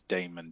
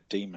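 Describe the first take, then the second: First: It sounds different from the ordinary word demon. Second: It sounds the same as the ordinary word demon. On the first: It keeps the creature apart from an evil spirit. "pronouncing as daemon just to differentiate it from the word demon" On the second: It follows the usual reading of the old spelling. "you can pronounce it demon, and that would be correct for the A E"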